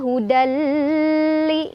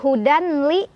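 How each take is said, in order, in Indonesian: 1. L yang menyatu itu ditahan terlalu lama. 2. Bunyi n terdengar sebelum l. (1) "Bukan juga hudali, nggak usah lama-lama" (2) "bukan hudanli"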